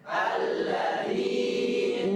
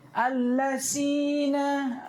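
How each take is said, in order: First: The middle consonant is a soft dh sound. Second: The middle consonant is a hissing s sound. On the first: The speaker calls it right. "contoh alladzin" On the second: The speaker calls it wrong. "Ada lebih parah pakai sin"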